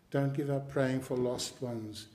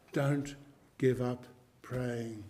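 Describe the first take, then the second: First: Said in the usual way. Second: Slow, deliberate, each word set apart; urging the flock, slow and weighty; slow exhortation. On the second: Shown as a demonstration. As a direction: lay it down word by word.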